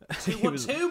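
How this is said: It is said in an Australian accent.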